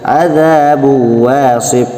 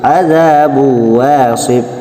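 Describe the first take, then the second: The two takes are said the same way.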